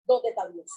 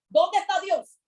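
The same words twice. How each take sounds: First: Said in the usual way. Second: José shouting his complaint in the pit; mock outcry. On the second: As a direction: cry it out to heaven. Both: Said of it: "podía haberse quejado en ese hueco".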